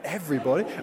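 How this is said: The word is said with disbelief and awe.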